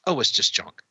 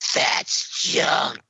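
First: It is said casually and lightly. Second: It is hissed out menacingly.

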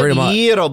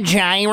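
First: The word begins with a Y sound. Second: The word begins with a G sound. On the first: This is how the Greek seller says it. "Y-E-R-O is how you pronounce it?" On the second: This is how people who read the G say it. "we just see the G"

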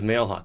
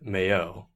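First: The surname is said plainly, as it looks. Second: The surname is said in a French way. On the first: This is the usual way the family says it. "the way it looks" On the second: This is how people from France say it. "Or if you're from France"

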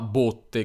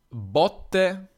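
First: The o vowel is closed. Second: The o vowel is open. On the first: A wooden barrel for wine or oil. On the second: Blows given when beating someone.

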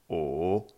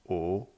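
First: It is said with the third tone. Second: It is said with the second tone.

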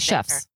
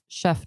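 First: The word ends with an S sound. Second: The word ends without an S sound. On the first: The speaker calls it wrong. "Don't say chefs" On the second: The speaker calls it right. "I am going to get you to drop the S on chef. You don't say it"

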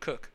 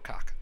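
First: The vowel sounds like the one in 'cook'. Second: The vowel sounds like the one in 'cock'. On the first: "how would you pronounce K-O-C-H, Cook or Cock" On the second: "we like to say Mark Cock"

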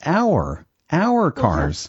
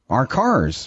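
First: 'Our' is pronounced like the word 'hour'. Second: 'Our' is pronounced like the word 'are'. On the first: The speaker calls it right. "that's not right at all" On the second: The speaker calls it wrong. "I'll just say the word R"

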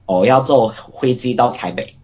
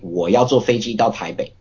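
First: It is spoken in a heavy Taiwanese accent. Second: It is spoken in a standard Mandarin accent. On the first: "In a very heavy Taiwanese accent" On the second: "In what we would call, like, standard Mandarin"

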